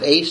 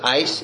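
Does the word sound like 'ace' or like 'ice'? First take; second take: ace; ice. First: The vowel sounds like the one in 'ace'. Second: The vowel sounds like the one in 'ice'. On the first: "some pronounce it ace" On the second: "some pronounce it ice"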